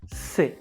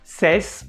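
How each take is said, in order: First: The final S sound is silent. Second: The final S sound is pronounced. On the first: The speaker calls it right. "The only correct pronunciation of this word" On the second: The speaker calls it wrong. "is not correct"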